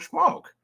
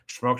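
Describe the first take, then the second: First: The word is said at a high pitch. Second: The word is said at a low pitch. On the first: "every time he'd go up higher in intonation" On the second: "every time he'd go up higher in intonation"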